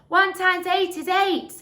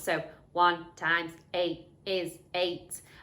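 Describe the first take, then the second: First: It is said very loudly in a natural voice. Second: It is said in a flat, mechanical robot voice. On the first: "in my loudest voice" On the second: "I might choose a robot voice"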